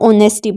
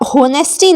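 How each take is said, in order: First: The word begins with a vowel sound. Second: The word begins with an h sound. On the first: The speaker calls it right. "इसको ओनेस्टी पढ़ेंगे" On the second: The speaker calls it wrong. "नहीं आप होनेस्टी नहीं पढ़ते हैं"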